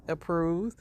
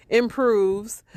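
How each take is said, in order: First: Said in the usual way. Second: IMPROVES said higher and much louder; emphatic correction. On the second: Real, not acted. Commentator fixing her slip of the tongue, "improves" stressed hard.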